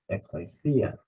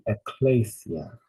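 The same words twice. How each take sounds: First: The stress falls on the final syllable. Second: The stress falls before the final syllable. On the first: The speaker calls it right. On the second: The speaker calls it wrong.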